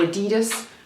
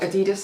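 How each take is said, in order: First: The word has an American pronunciation. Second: The word has a British pronunciation. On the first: "as you say in the States" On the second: "as you say in the U K"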